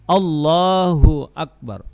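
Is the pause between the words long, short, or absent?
absent. The words run together without any pause.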